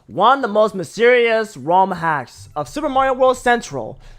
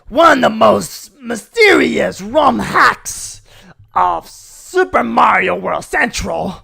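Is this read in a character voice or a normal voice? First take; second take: normal voice; character voice. First: It is read in a normal speaking voice. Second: It is read in a put-on character voice. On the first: "gonna do a normal way of saying it" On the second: "by doing the voice of the Coronation Day Peach"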